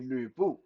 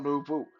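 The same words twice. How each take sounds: First: The name has its original Mandarin pronunciation. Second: The name has an English-style game pronunciation. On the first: The speaker calls it right. "it's actually Lu Bu" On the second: The speaker calls it wrong. "not Lu Bu"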